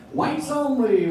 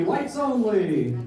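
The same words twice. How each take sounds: First: High, sing-song machine chime. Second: Slow, drawn-out machine chime. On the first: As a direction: chirp it out like an appliance alert. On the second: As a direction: drag it out like a finished wash cycle. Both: Shown as a demonstration. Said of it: "my impression of a racist washing machine".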